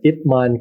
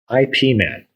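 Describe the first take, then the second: First: Ip is said as one syllable. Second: Ip is spelled out as two letters. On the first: The speaker calls it right. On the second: The speaker calls it wrong.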